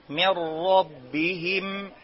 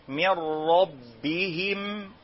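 The two takes are said the same way.

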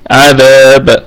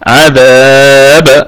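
First: The long vowel is held for two counts. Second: The long vowel is held for four counts. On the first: "القصر" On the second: "والتوسط"

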